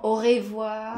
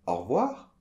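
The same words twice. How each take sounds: First: "Au revoir" with a full "re", the E fully sounded; over-pronounced E. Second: "Au revoir" without the E, stressed on "-voir"; correct au revoir. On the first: Host imitating the common mistake of sounding the E. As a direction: lean on the E in "revoir" as the learners do. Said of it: "trop prononcer le E". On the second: Teacher modelling the correct au revoir. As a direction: say "or-voir", weight on the end. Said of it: "accent tonique à la fin des mots". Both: Shown as a demonstration.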